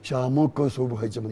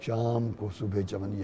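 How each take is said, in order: First: A vowel is sounded after the m of shaam. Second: The m of shaam ends without a vowel. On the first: The speaker calls it wrong. "ये गलत है।" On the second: The speaker calls it right. "शाम शाम को नहीं"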